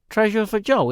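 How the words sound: It is said in a put-on British accent. "my British voice, which is more like"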